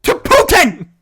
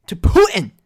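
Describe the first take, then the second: First: To Putin! much higher and louder in disbelief; incredulous exclamation. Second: Said in the usual way. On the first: Real, not acted. He can't believe the actress wrote a poem to Putin, incredulous.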